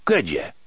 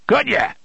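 First: Said in the usual way. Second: High, forceful repeated question; raised, insistent challenge; sharp demand. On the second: A narrator's reading. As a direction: fire the question out, pitched way up. Tick-Tock repeats it, demanding.

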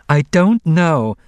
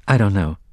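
First: High, loud, slow protest; insistent denial. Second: Said in the usual way. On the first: A narrator's reading. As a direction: stretch out an exasperated denial under pressure. Repeated denial when pressed.

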